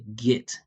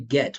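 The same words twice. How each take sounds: First: The vowel is a short 'ih' as in it. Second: The vowel is a clear 'eh' as in bed. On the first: The speaker calls it right. "we say get, it, it" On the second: The speaker calls it wrong. "We don't say get, I'm not saying like eh, like bed"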